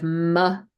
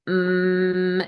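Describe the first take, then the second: First: An m followed by a short added vowel. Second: A clipped, held m with no vowel after it. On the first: The speaker calls it wrong. "instead of" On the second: The speaker calls it right. "making sure you're not adding that schwa"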